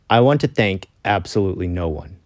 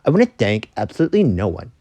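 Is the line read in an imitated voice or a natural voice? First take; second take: natural; imitated. First: It is read in the speaker's natural voice. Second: It is read in an imitated put-on voice.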